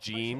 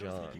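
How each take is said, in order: First: The name sounds like the English name Gene. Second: The name sounds like John, with a French touch. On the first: The speaker calls it wrong. "because I said Gene, and everyone's like, it's not Gene" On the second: The speaker calls it right. "it's John. Okay, so John, but with like a French accent"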